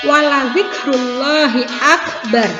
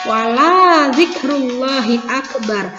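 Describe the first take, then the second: First: The vowel after the L is short. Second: The vowel after the L is drawn out long. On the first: Remembering God is greatest. The speaker calls it right. "Lam yang awalnya ini pendek" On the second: Do not remember God the greatest. The speaker calls it wrong. "dibaca panjang"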